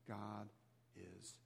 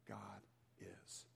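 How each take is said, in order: Both takes have the same delivery.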